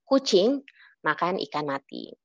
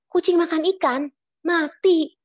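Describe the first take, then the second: First: The sentence runs on without a pause. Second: There is a pause before the last word.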